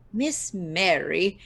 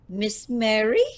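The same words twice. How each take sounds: First: Stretched, slow "Miss Mary?" tasting each word; drawn out slowly, relishing the title; slow savouring. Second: Savoring a title. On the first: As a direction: diva rolling her old title around. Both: Acted. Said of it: "No one's called me that in years".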